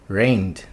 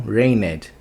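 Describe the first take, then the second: First: The final D is a quick, short sound. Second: The final D is not a quick sound. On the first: The speaker calls it right. "Você só vai pronunciar um sonzinho rápido de D depois desse N" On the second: The speaker calls it wrong. "não"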